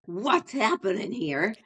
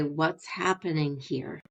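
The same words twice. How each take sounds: First: Sharper, suspicious "What's happening here?" with a rise; pointed, confrontational version of the same question; accusing tone. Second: Slow, calm curious question; softly curious, taking your time. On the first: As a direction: demand it like you caught them. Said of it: "Listen to my tone, same words". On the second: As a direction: ask it slowly and gently. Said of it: "And you can hear me, I'm slowing down". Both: Shown as a demonstration.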